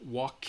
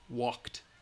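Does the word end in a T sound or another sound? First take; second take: another sound; T sound. First: The word does not end in a T sound. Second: The word ends in a T sound. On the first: The speaker calls it wrong. "It's not walked. No, no, no" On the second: The speaker calls it right. "You should write final sound, T sound"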